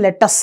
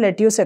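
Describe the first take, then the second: First: The second syllable is a short 'us' sound. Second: The second syllable sounds like a long 'yoos'. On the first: This is how people abroad say it. "Foreigners అందరూ foreign కంట్రీస్లో దీన్ని లెటస్ అని పిలుస్తుంటారు" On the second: This is how people here usually say it. "మనం లెట్యూస్ ఎక్కువగా అంటుంటాం"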